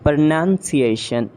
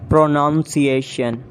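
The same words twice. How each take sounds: First: "Pronunciation" as pruh-nun-see-AY-shun; reduced first syllable in "Pronunciation"; British pronunciation. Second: "Pronunciation" as pro-nown-see-AY-shun; full PRO opening "Pronunciation"; mispronounced pronunciation. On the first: Shown as a demonstration. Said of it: "exact pronunciation according to the British". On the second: Acted. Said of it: "you have to correct me".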